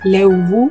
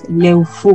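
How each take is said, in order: First: The middle consonant sounds like a B. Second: The middle consonant sounds like an F. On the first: This is how it is said in Alto Biobío. "se pronuncia más como una B" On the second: This is how it is said further south, around Temuco. "se pronuncia como una F"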